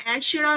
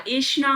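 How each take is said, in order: First: ऐसड़ा with open ai and flapped r; wrong pronunciation. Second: ऐषणा with sh and retroflex n; correct pronunciation. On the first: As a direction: say ऐसड़ा as ai-sh-ṛaa. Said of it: "ऐसड़ा नहीं होता". (ऐसड़ा में 'ऐ' और 'ड़') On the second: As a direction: say ऐषणा as esh-naa. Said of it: "ऐषणा होता है". (ऐषणा में 'ष' और 'ण' साफ़) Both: Shown as a demonstration.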